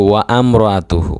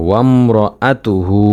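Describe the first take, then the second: First: "ওয়া আম র আ তু হু" split as wa-am; common mispronunciation. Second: "ওয়াম র আ তু হু" with wam as one syllable; correct joined pronunciation. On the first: Teacher warning what many say, "ওয়া আম" with an extra a. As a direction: break "ওয়া আম" into two vowels. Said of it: "অনেকে বলে". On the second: Teacher correcting a common error, "ওয়াম" as a single syllable. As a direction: glide straight into "ওয়াম", no second a. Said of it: "ওয়া আম র যেন না হয়". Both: Shown as a demonstration.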